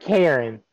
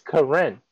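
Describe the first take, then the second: First: It sounds like the common English name Karen. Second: It sounds like the anime character's name Karin. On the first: The speaker calls it wrong. "It's not Karen. Like she out here finna call the manager" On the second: The speaker calls it right. "like from Naruto, it's Karin"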